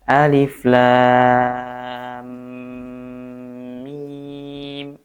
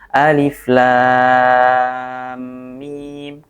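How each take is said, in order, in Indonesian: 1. Bunyi m di akhir ditahan sedikit lebih lama. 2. Bunyi m di akhir dilepas dengan cepat. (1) "minimalnya adalah tiga tiga harokat" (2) "kerasa masih kecepatan"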